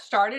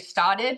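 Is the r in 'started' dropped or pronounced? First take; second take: pronounced; dropped. First: The r sound in the word is pronounced. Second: The r sound in the word is dropped. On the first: Careful diction outside the local accent. "Did you hear that? Started" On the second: The local Boston way of saying it. "I didn't say started"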